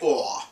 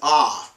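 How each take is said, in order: First: The vowel is a rounded aw sound. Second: The vowel is an open, unrounded ah sound. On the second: This is the pronunciation used in Israel today. "which we pronounce as ah"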